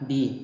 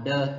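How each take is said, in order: First: The vowel is a long 'ee'. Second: The vowel is a short, weak 'uh'. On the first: The next word begins with a vowel sound. "ตัวนี้มันอยู่ต่อหน้าคำศัพท์ที่เป็นสระเราต้องอ่านว่า" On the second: The next word begins with a consonant sound. "ถ้าว่ามันอยู่ต่อหน้าคำศัพท์ที่ขึ้นต้นด้วยเสียงพยัญชนะหรือขึ้นต้นด้วยพยัญชนะเราต้องอ่านว่า"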